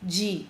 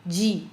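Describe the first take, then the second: First: It starts with a soft 'j'-like sound. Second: The same.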